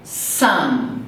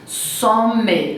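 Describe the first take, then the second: First: It ends on the M with closed lips. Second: An extra vowel syllable follows the final M. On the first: The speaker calls it right. "Não tem uma sílaba depois" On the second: The speaker calls it wrong. "não"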